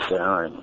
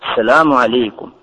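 First: The greeting is muttered quietly through the teeth. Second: The greeting is said in a loud voice. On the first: The greeting is returned grudgingly. "цедить сквозь зубы" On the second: The greeting is given warmly and openly. "громким голосом"

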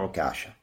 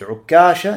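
First: The k sound is short, single. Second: The k sound is held long, doubled. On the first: "можно с одной" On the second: "можно говорить с двумя каф"

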